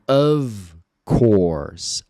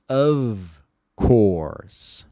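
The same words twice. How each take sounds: First: Of course said slowly, of like ov; slow modeled phrase. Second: Of course with of said ov; model phrase. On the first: Teacher modeling slowly for students to repeat. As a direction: draw out of course, v sound on of. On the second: Teacher repeating the phrase for practice. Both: Shown as a demonstration. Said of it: "um F só aqui vai ter som de v".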